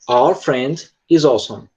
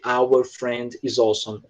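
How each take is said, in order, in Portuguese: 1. A palavra 'our' é encurtada e reduzida. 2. A palavra 'our' é pronunciada por completo e com cuidado. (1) "Você diz ... É como se o som ele encurtasse" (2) "você não vai dizer"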